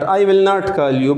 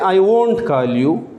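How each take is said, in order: First: The words 'will not' are said in full. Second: The words 'will not' are contracted to 'won't'. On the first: The speaker calls it wrong. "The native speaker don't say विल नॉट" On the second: The speaker calls it right. "But they से"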